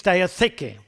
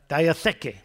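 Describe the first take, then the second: First: Diatheke said as dee-ah-THAY-kay, clearly spelled out; Greek pronunciation. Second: Diatheke said alone, a bit lower, falling; repeated Greek word. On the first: Preacher teaching the Greek word to listeners, careful pronunciation. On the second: Preacher repeating the Greek word for the congregation, slow repeat. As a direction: repeat Diatheke slowly as dee-ah-THAY-kay. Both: Shown as a demonstration. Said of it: "And then in the Greek".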